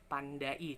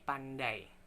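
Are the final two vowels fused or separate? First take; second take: separate; fused. First: The final vowels are said as separate syllables. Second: The final vowels blend into one gliding sound. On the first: The speaker calls it wrong. "bukan pandai" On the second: The speaker calls it right. "tapi pandai"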